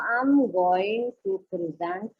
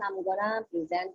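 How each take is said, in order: First: Going to is said fully as two words. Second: Going to is reduced to gonna. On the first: This is the formal way to say it. The speaker calls it right. "you have to say it" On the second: This is an informal way to say it. The speaker calls it wrong. "jangan mengatakan"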